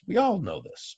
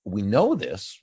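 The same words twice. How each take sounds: First: All lifted much higher and leaned on; stress on all. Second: Said in the usual way. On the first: Acted. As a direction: hit the word all hard and high. Rhetorical build, repeated with emphasis.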